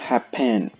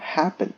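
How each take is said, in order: First: The stress is on the second syllable. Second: The stress is on the first syllable. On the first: The speaker calls it wrong. "Nós não falamos happen" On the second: The speaker calls it right. "Como a sílaba tônica é a primeira"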